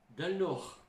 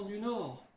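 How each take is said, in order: First: "del Nord" lightly said in a Northern ch'ti accent; a quick hint of ch'ti on "del Nord". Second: Said in the usual way. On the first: Shown as a demonstration. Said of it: "on parle comme les gens du Nord". (léger accent ch'ti sur « del Nord ») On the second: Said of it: "del Nord".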